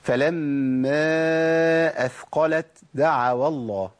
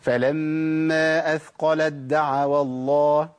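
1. التاء تُنطق مع نفَس مسموع قبل الدال. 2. التاء تُدغم في الدال بعدها بدون نفَس. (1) "أنا كده عملت همس، ما ينفعش" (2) "كده"

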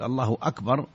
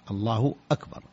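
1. صوت الواو يتصل بـ 'akbar'. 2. همزة واضحة تبدأ 'akbar'. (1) "إبدال الهمزة واوا" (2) "وأكبر الهمزة مقطوعة، همزة قطع"

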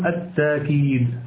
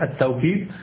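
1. تأتي ألف ممدودة دون همزة. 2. يأتي صوت الواو بعد المقطع الأول. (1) "وتقوله بالألف يعني بتسهيل الهمزة بدون أن تنطق بالهمزة" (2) "تقوله بالواوي"

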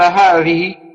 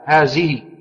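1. يُنطق الحرف الصامت الأوسط كصوت 'th'. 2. يُنطق الحرف الصامت الأوسط كصوت 'z'. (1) "إذا قرأ القرآن قال هذه" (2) "في الذال ينطقها زاي"

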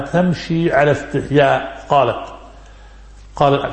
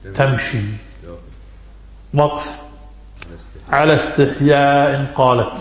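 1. تأتي الوقفة بعد 'ala istihya'، وقبل 'qalat'. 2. تأتي الوقفة بعد 'tamshi'، وقبل 'ala istihya'. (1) "تمشي على استحياء وقف قالت" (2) "ومنهم من قرأ وجاءته إحداهما تمشي وقف على استحياء قالت"

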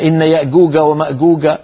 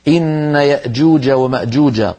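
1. تُنطق الجيم كحرف G قاسٍ. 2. تُنطق الجيم كصوت J. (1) "هذا كله لا يصح" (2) "لابد أن ننطق الجيم كما رويت لنا عن رسول الله"

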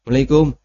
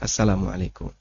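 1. Suku kata di awal tertelan dan hampir tidak terdengar. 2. Setiap suku kata dari salam itu terdengar jelas. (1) "Ini gak serius" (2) "Ya yang serius ya"

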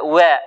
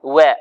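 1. الألف بعد الواو مائلة نحو صوت الياء. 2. الألف بعد الواو مائلة نحو صوت الياء.

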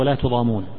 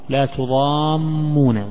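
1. صوت الميم مفرد وقصير. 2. صوت الميم مشدد ويُمد أطول. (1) "على الوجه الأول، وهو لا تضامون من الظلم" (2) "بتشديد الميم"

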